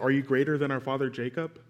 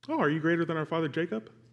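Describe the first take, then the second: First: It is asked as a plain, sincere question. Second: It is asked with a doubting, skeptical tone.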